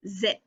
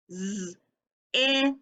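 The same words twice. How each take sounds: First: Said in the usual way. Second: "Z-i-p" as buzzing z, held short i, popped p; sounding it out. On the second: Shown as a demonstration. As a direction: separate each sound of zip. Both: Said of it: "stretching the word out".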